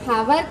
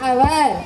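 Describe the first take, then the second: First: The word starts with an H sound. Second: The word starts directly with a vowel. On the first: The speaker calls it wrong. "హవర్ కాదురా" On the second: The speaker calls it right. "హెచ్ తీసి పలకాలన్నమాట"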